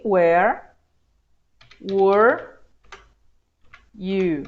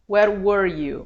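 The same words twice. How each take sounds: First: "Where" open, then "were" closed, each word alone; word by word contrast. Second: Said in the usual way. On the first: Shown as a demonstration. Teacher showing students the two sounds apart. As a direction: separate "Where" and "were" slowly with pauses. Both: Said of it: "a diferença da pronúncia aqui".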